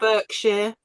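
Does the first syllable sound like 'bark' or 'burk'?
burk. The first syllable sounds like 'burk'. This is how some Americans say it. The speaker calls it wrong. "as the Americans, I think some Americans"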